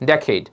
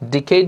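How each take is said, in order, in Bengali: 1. প্রথম স্বরধ্বনিটি 'eh'-র মতো শোনায়। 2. প্রথম স্বরধ্বনিটি 'ee'-র মতো শোনায়। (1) "উচ্চারণটা আমরা করি ডেকেড" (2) "ডিকেড না"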